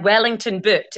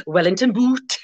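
First: Said in the usual way. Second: "Wellington boot" with a Gaelic lilt, long oo in boot; Gaelic-style accent. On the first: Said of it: "Like, Wellington boot in Gaelic". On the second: Shown as a demonstration. Teacher jokes about borrowed words, Gaelic-accented "Wellington boot". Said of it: "you sort of say it like that".

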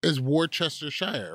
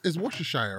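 First: Worcestershire said as WOR-chester-shire; every letter pronounced. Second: Worcestershire said as WUSH-uh-shire; skrócona wymowa. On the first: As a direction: sound out the full "chester" in Worcestershire. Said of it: "You are skipping mad letters". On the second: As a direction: swallow the middle of Worcestershire, "WOR-shuh-shire". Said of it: "How do you pronounce, it". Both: Shown as a demonstration.

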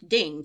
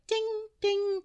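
First: Said in the usual way. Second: High sung-out ding like a chime; ping it high like a little bell; imitated ding. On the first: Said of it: "ding from a music box". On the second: Imitating the music box chime for the listener, high bell ding. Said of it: "I keep hearing this".

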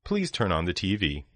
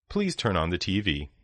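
The two takes are said the same way.

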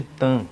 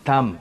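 First: "Tan" ending in a nasal vowel, lips left open; nasalised M. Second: "Tam" closed on a clear M; M as written. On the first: Teacher showing Brazilian habit with company name, nasalised M. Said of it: "acabamos nasalizando a letra M". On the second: Teacher showing the company's spelling, clear final M. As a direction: shut the lips on the end of "Tam". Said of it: "ela é escrita como". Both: Shown as a demonstration.

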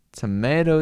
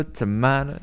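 First: Said in the usual way. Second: "tomato" said toh-MAH-toh with an Italian open a; Italian pronunciation. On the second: Shown as a demonstration. Joking to chat about Italians, "tomato" as toh-MAH-toh. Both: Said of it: "It's a fucking Italian".

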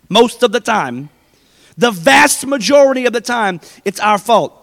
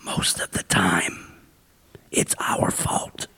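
First: Louder, emphatic repeat; preacher driving the point home; firm proclamation. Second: Slow, hushed whisper; whispered confession to the congregation; secret whisper. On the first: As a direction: say it out plainly after the whisper. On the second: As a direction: let them in on a secret, barely breathing. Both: Shown as a demonstration. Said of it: "You ready for a secret".

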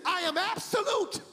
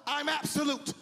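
First: High, ringing proclamation; preacher's raised-pitch declaration; emphatic divine declaration. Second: Said in the usual way. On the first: Retold or imitated. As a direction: proclaim it forcefully as God's word. God's words repeated with force.

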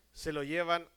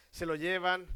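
No difference in how they are said.

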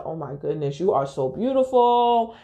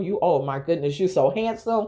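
First: Said in the usual way. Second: Light teasing echo of his compliment; playful mock flattery. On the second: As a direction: mimic him to poke fun. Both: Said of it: "kinda, like, mocking him".

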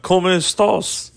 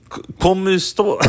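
First: Higher, fuller mock Russian-accented Spanish. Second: Halting, higher attempt at Russian-accented Spanish. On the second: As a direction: try Spanish with a mock Russian accent, faltering. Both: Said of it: "speak with a Russian accent on top of it".

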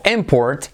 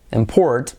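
First: IMport, as the noun; stress on first syllable. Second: ImPORT, as the verb; stress on second syllable. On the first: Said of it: "importación". (import con acento en la primera sílaba) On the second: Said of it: "que es importar". (import con acento en la segunda sílaba) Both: Shown as a demonstration.

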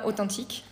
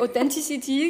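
First: "authentique" said the French way, o-tan-TEEK; "authentique" with a nasal French vowel and final stress; French word. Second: "authenticity" in English, the TH softened; English word. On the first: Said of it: "what is it in French?". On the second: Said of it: "How do you say?". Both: Shown as a demonstration.

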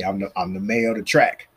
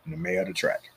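First: Said in the usual way. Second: A secret boast, whispered; hushed, unvoiced repeat; whispered aside. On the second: Real, not acted. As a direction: whisper the title under his breath. Repeats his title as aside.

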